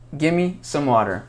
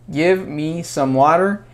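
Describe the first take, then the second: First: Give and me merge into one word. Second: Give and me are said as separate words.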